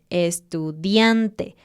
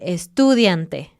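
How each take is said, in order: First: The stress falls on the second-to-last syllable. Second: The stress falls away from the second-to-last syllable. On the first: The speaker calls it right. "siempre pone el énfasis en una sílaba antes del final" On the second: The speaker calls it wrong. "a veces es fácil confundirse y cambiar la, la acentuación"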